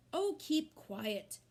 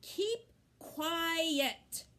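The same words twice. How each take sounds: First: Put-on a tearful girl hollering at her brother; hollered. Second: Put-on girl yelling at her brother with tears; hollered again. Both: A narrator's reading. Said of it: "hollered Fern".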